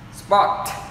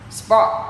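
First: The final consonant is audibly released. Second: The final consonant is held without release. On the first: "đều được nhả âm ending sound ra" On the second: "spot là âm chi cũng được ngắt"

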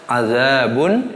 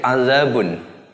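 First: The vowel after the first consonant is long. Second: The vowel after the first consonant is short. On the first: "Yang kedua panjang pisah" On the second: "Yang pertama itu dibaca pendek"

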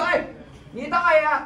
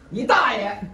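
First: It is said warmly, as a greeting. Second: It is said harshly, as a curse. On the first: It asks after your uncle. "这听懂了吧" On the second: It is a curse. "这不就骂街了吗"

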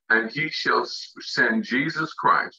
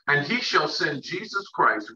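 First: It is read very slowly. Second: It is read at a normal pace.

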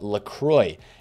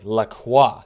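First: The name is given an American English pronunciation. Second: The name is given a French pronunciation. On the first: The speaker calls it wrong. "that is how we pronounce this guy's name" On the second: The speaker calls it right. "it is now supposed to be pronounced LaCroix"

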